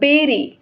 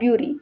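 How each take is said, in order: First: The first vowel sounds like 'beh'. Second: The first vowel sounds like 'byoo'. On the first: The speaker calls it right. "But it pronounce बेरी" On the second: The speaker calls it wrong. "और ब्युरी"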